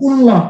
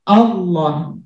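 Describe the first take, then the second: First: The word begins with an i vowel. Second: The word begins with an a vowel. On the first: The speaker calls it wrong. "tidak mungkin dia barisnya illah" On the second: The speaker calls it right. "tapi Allah"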